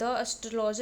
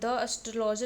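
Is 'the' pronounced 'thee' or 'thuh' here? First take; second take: thuh; thuh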